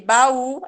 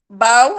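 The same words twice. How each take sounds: First: The two vowels are split apart slowly. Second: The two vowels are run together quickly. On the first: "E baú é separado" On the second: "Baú é tudo junto"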